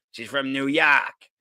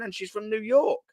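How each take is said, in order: First: Slow New York drawl with "York" said as "Yawk"; mock New York accent. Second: Said in the usual way. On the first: Shown as a demonstration. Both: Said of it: "that's probably not even a New York accent".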